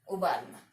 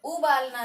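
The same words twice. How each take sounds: First: उबालना with a short first vowel, "u-baalna"; correct short उ. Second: उबालना with a stretched first vowel, "oo-baalna"; wrong long ऊ. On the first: Teacher giving the correct word, उबालना with short "u". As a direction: keep the opening of उबालना short and low. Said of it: "क्या होता है". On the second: Teacher rejecting the mistake, उबालना with long "oo". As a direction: lengthen the opening vowel of उबालना. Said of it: "नहीं होता है कभी भी". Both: Shown as a demonstration.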